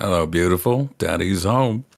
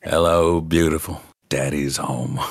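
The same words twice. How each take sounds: First: Lightly voiced impression, held back halfway through; Jack Nicholson. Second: Low impression of a famous actor, dropping lower at the end; Jack Nicholson. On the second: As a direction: let the star's voice fully out, pitched down. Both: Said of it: "Jack Nicholson's coming out".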